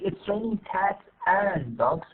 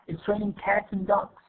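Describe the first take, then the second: First: The word 'and' is said in full. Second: The word 'and' is reduced to 'n'. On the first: The speaker calls it wrong. "instead of saying" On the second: The speaker calls it right. "we say just"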